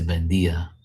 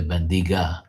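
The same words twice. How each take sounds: First: "bendia" ending in dee-ah, no g; g left silent. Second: "bendiga" with a clearly sounded g; wrong pronunciation with a hard g. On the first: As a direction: say "bendia" with the g dropped. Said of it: "you say bendia". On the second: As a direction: say "bendiga" with a hard g before the final a. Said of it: "You don't say the". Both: Shown as a demonstration.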